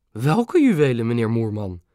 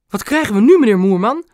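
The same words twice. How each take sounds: First: Mildly puzzled, falling question; surprised. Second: High, loud theatrical outcry; feigned indignation. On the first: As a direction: ask with understated, innocent surprise. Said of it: "vroeg oma verbaasd". (licht verbaasd, dalende vraag) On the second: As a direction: exclaim it loudly, pretending to be outraged. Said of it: "gespeeld verontwaardigd". (luid en hoog gespeeld verontwaardigd) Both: A narrator's reading.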